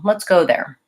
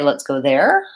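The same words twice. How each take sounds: First: The pitch falls at the end. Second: The pitch rises at the end. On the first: The speaker sounds sure and finished. The speaker calls it right. "just sort of a regular, everyday intonation" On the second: The speaker sounds uncertain or questioning. The speaker calls it wrong. "I rise up, it sounds uncertain or questioning"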